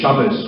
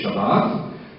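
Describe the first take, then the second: First: It is said in an Ashkenazi pronunciation. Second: It is said in a Sephardi pronunciation. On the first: This is not how Hebrew is spoken in Israel today. "We don't say Shabbos" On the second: This is how Hebrew is spoken in Israel today. "we say Shabbat"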